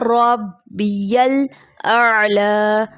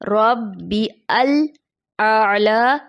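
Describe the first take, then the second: First: Rabbi and al are linked into one word. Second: Rabbi and al are said as separate parts. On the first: The speaker calls it right. "दुरुस्त अदायगी है" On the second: The speaker calls it wrong. "दुरुस्त नहीं है"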